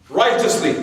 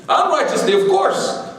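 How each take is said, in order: First: Dry, deadpan sarcasm; sarcastic. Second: High, sing-song "Unrighteously, of course" with a laugh behind it; playful concession to a listener; mock correction. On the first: Acted. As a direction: say it straight-faced, meaning the opposite. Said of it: "I'm just being sarcastic". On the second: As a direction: give in to the heckler, teasing and much higher. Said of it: "Look at the brother, he's mad at us".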